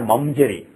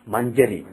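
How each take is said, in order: First: The nasal before j is an m sound. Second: The nasal before j is an ny sound. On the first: The speaker calls it wrong. "it's not Manjari or Mamjari" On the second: The speaker calls it right. "It is Manjari"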